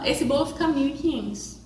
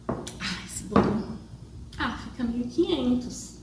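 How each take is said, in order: First: It is said firmly and confidently. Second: It is said hesitantly with insecure pauses.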